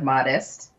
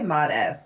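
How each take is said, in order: First: It ends with the ordinary '-est' sound. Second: It ends with the letter name 'ess'. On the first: The speaker calls it wrong. "not like modest" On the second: The speaker calls it right. "like mod and then S, like ESS on the end"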